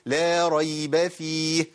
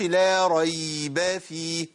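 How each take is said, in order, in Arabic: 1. حرف الياء يُنطق قصيرًا، غير ممدود. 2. حرف الياء يُمدّ فيصير حركة طويلة. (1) "لو هوصلها هقول" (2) "ما أقولش ... ما ينفعش. أنا كده وصلتها للمد"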